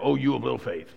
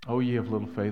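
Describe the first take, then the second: First: It sounds angry and upset. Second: It sounds tender and heartbroken.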